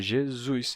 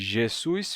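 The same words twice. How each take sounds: First: The middle consonant is a voiced z sound. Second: The middle consonant is a voiceless s sound. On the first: This is the later Portuguese form after the change. "E o S intervocálico se sonoriza" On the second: This is the older form before the change. "Em vez de Jesus"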